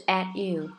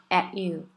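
No difference in how they are said.

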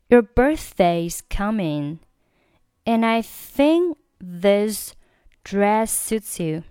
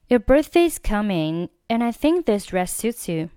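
First: The sentence is read at a slower pace. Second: The sentence is read at a faster pace. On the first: "整句话我们再尝试读一下" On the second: "我们再加快点速度"

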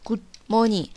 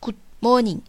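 Both takes have the same delivery.

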